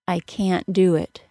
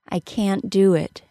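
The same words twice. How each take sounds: First: The t of can't is a glottal stop. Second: The t of can't is released into d. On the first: "I could also use the glottal stop for the T sound" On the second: "I stop the air with my tongue as I normally would for a T sound, and I release it as the D sound of the word do"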